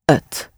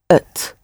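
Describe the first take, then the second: First: The word begins with a vowel. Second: The word begins with a vowel.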